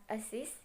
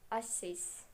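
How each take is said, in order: First: Said in the usual way. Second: "assist" with SIST stressed, set apart; stress on last syllable. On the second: Shown as a demonstration. Teacher showing a strong last syllable, asSIST stressed. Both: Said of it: "if the last syllable is strong, it is emphasis".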